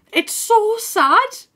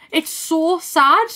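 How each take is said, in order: First: Slow, high, whiny lament; high mock wail. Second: Drawn-out sad sigh; slow sad lament. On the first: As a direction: wail it like fake crying. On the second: Real, not acted. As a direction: stretch it out, mournful.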